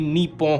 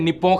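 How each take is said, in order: First: It is said with the native Japanese sounds. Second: It is said as English spelling suggests. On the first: The speaker calls it right. "असली प्रोनाउंसिएशन इसकी नीपो होगी" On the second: The speaker calls it wrong. "अगर आप इसे इंग्लिश में लिखा हुआ देखोगे तो आप इसे निप्पो करके प्रोनाउंस करोगे"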